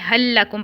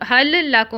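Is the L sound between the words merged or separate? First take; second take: merged; separate. First: The two L sounds merge into one doubled L. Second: The two L sounds are said separately. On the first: The speaker calls it right. "उसको इदगाम के साथ" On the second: The speaker calls it wrong. "हमने हल लक हल लकुम नहीं पढ़ा"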